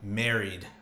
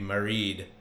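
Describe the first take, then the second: First: It sounds exactly like the word married. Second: It sounds different from the word married. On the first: The speaker calls it wrong. "I always hear it pronounced like married" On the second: The speaker calls it right. "Maybe Marid. I think you're saying it"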